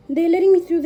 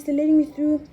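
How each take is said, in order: First: High, loud "letting me through"; thrilled, rushing the words; excited. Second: High, loud, stress on "me"; gushing, pushing "me"; excited. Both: Real, not acted. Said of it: "They're so nice".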